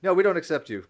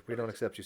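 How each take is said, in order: First: Loud, playful mock rejection. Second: Said in the usual way. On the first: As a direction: boom it out as a joking refusal. Joking rejection of the new atheist.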